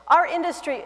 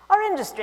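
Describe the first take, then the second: First: It is said in the speaker's ordinary accent. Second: It is said in a put-on British accent.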